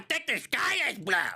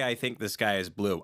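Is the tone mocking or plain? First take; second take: mocking; plain. First: It is said in a whiny, mocking tone. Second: It is said in a plain, ordinary tone. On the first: The other person's words are being ridiculed. "He has a tone of voice... in a shitty. Bah, bah, bah" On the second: A sincere statement of opinion. "you go, hey"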